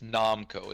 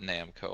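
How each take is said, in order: First: The first syllable sounds like 'nom'. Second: The first syllable does not sound like 'nom'. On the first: The speaker calls it right. "It's Namco, Like you nom down onto some shit" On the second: The speaker calls it wrong. "it's not Namco. I'm guilty of mispronouncing that"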